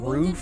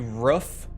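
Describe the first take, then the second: First: The word is said in a standard accent. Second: The word is said in a regional accent. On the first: "instead of saying" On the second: "it would be roof. ... It's a regional accent"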